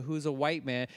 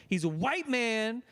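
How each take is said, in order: First: Said in the usual way. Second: WHITE MAN pitched high and drawn out; stress on white man. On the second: Real, not acted. Co-host stressing who voiced the character, WHITE MAN emphasized. Emphatic repeat of the same words.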